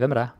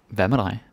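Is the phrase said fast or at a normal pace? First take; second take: fast; normal. First: Said fast with the final word reduced. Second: Said at normal pace with a full final word.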